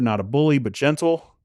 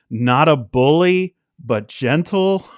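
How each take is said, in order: First: It is said at normal volume. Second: It is said noticeably louder.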